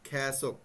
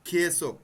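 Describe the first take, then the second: First: The first vowel sounds like 'ya' as in 'yak'. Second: The first vowel sounds like a plain 'e'. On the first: This is the word as it is actually spoken. "কিন্তু বলার সময় খ্যাসক" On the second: This is the word as it is spelled. "আপনারা যখন মুখস্থ করবেন খেয়েসক"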